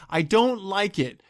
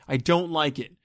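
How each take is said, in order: First: Slow, heavy stress on "don't": I DON'T like it; emphatic. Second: Said in the usual way. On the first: Real, not acted. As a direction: lean hard on "don't", stretched out.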